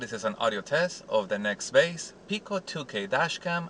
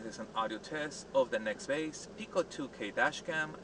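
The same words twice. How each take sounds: First: The voice is close, inside the car. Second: The voice is distant, from outside the car. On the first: "I am sitting on the driver's side seat" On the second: "I'm standing outside the driver's side door"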